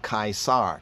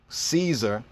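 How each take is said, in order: First: The name is said an uncommon, different way. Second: The name is said the common English way. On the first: The speaker calls it right. "When we pronounce Caesar correctly, we have Kaisar" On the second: The speaker calls it wrong. "Caesar is mispronounced"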